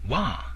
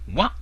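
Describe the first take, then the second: First: It is high and raised, like shouting. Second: It is short, low and abruptly cut off. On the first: It means bamboo or chewing. "wa in a high, raised tone, sometimes called the third tone" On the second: It means fat, chubby or full. "Wa in a short, low cut-off tone, sometimes called the first tone"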